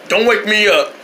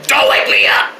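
First: Said in the usual way. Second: Harsh whispered yell; whispered shout. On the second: Acted.

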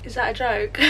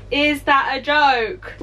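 First: Said in the usual way. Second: Slow, laughing repeat of the question; laughing disbelief. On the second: Real, not acted. Finding her candle spot ridiculous, slow laughing disbelief.

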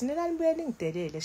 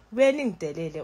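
First: Nina nibuye ningidelele pitched up and fast; higher. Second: Said in the usual way. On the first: Real, not acted. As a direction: fire off nibuye ningidelele high and quick.

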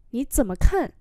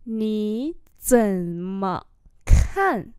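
First: Said in the usual way. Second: Slow, syllables held long; teacher's slow-motion demo; slow model reading. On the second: Shown as a demonstration. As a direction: stretch out "Nǐ zǐ me kan" word by word. Same phrase drawn out for learners.

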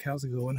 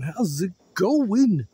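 First: Said in the usual way. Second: Slow, stretched singsong greeting; drawn-out singsong. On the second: Shown as a demonstration. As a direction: sing it out slowly, rising high.

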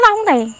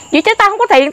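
First: High, hard repeat of the retort; defiant retold repeat; retold angry retort. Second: High, sharp retort; angry retold comeback. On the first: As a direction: throw it back at him, voice up high. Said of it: "tôi nói". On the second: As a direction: snap back high that you have no money. Retold shouting match with thug.

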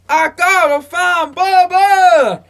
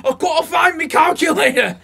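First: Slow, drawn-out movie-line voice, pitched up and loud; a Forrest Gump drawl stretched slowly; Forrest Gump impression. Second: "I gotta find me calculator" in a hammed-up, pitched-up Manchester accent; a deliberately bad Manchester accent, half shouted. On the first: Friend imitates Forrest Gump's line, slow and drawn out. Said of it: "that one scene in Forrest Gump". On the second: Friend mocks Carl Pilkington with a bad Manchester accent. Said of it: "That's the worst Manchester accent".

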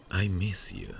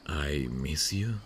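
First: "I miss you." higher, stress on "I", falling at the end; firm statement. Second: "I miss you?" said slowly, rising on "you" like a timid question; shy question. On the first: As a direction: say it outright and settled, with no doubt. Confident admission after laughing. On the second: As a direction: test the words, tentative, the tune going up at the end. Shy hesitant first admission. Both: Real, not acted.

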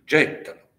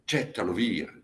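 First: Gettalo flung out higher and louder; a desperate louder repeat; louder cry. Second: Said in the usual way. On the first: Acted. Admeto urges his father.

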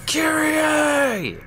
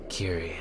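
First: High, drawn-out mock scream of a name; hammed-up dramatic yell, pitched way up; Nero yelling. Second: Low, soft deadpan utterance of a name; deflated mock call. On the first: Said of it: "inexplicably yelling her name". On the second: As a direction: let the dramatic cry fizzle out quietly. Running gag ends in deadpan call.

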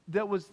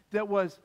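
The two takes are said the same way.

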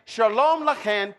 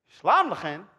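First: "Shalom Lachem" slowly, with a full "sha-LOHM"; "Shalom" in two clear syllables, Hebrew style; Hebrew pronunciation. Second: "Shalom Lachem" lower, starting "shlahm"; "Shalom Lachem" as shlahm la-KHEN, Aramaic style; Aramaic pronunciation. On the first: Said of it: "Here's what the Hebrew would be". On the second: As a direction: say "Shalom" as one syllable, SHLAHM, then "Lachem". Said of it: "Let's look at the Aramaic". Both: Shown as a demonstration.

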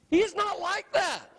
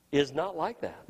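First: "He is not like that" pitched high and forceful; high, ringing insistence on "He is not like that"; emphatic repetition. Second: Said in the usual way. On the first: Real, not acted. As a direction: drive home every word of "not like that". Preacher repeats it with force.

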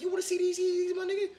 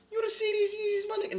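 First: High squeal with a laugh; squealing tease. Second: Even higher, shouted squeal; shrieking tease. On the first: Host teases viewers about his new Yeezys in a high squeal. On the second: Host teases viewers again about his Yeezys, shrieking higher. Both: Acted.

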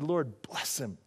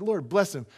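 First: Soft blessing. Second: Said in the usual way. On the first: Retold or imitated. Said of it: "And I just said". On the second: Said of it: "I said".

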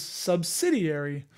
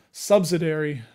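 First: Subsidiary said slowly as "sub-sid-ee-airy"; subsidiary with every syllable clear, "sub-sid-ee-airy"; careful correct pronunciation. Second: Subsidiary said as "sub-suh-dairy"; subsidiary with the middle blurred, "sub-suh-dairy"; old mispronunciation. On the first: Correcting himself slowly, subsidiary as "sub-sid-ee-airy". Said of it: "I was really bad on was". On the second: Admitting his old way, subsidiary as "sub-suh-dairy". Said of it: "which is subsidiary". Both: Shown as a demonstration.

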